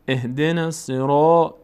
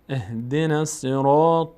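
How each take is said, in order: Both takes have the same delivery.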